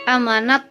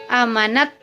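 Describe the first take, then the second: Both takes have the same delivery.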